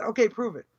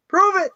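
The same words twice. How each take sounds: First: Said in the usual way. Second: Higher and louder, a barked challenge; forceful shouted prove it; loud demand. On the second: Shown as a demonstration. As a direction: punch it out like a dare shouted across the room.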